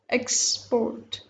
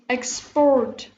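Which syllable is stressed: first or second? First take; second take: first; second. First: The stress is on the first syllable. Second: The stress is on the second syllable. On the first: It is a noun. "So this is noun" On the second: It is a verb. "we are stressing on the last part of the word"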